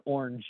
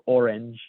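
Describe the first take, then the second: First: Orange squashed into one syllable; orange as "ornge". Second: Orange said fully, "or-ange"; orange in two syllables. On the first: Reading a meme mocking Americans, orange said as "ornge". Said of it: "O R N G E instead of orange". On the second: Contrasting the meme's spelling, orange said in full as two syllables. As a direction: give orange both its syllables. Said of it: "instead of orange". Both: Shown as a demonstration.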